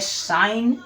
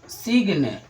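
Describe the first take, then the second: First: The word is said without a g sound. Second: The word is said with a g sound. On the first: The speaker calls it right. "तो सही आपका है साइन" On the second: The speaker calls it wrong. "कुछ लोग बोलेंगे सिग्न"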